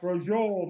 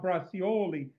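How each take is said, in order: First: It is said in an Italian-American dialect form. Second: It is said in a standard, outsider form. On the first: It marks the speaker as an Italian-American insider. The speaker calls it right. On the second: It marks the speaker as an outsider. The speaker calls it wrong. "not bracioli"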